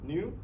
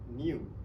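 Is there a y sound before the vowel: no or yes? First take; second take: no; yes. First: It is said without a y sound. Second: It is said with a y sound. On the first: "focus on the American accent. So the palatal ear sound is missing" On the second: "in British, British accent, the ear sound is appear"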